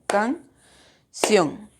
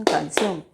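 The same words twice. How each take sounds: First: CAN, long pause, CIÓN; split into syllables. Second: Said in the usual way. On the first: Shown as a demonstration. Teacher correcting how students divide canción, slow syllable by syllable. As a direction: slowly break canción into two separate beats. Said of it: "Lo hacen de esta forma". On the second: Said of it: "No dicen canción".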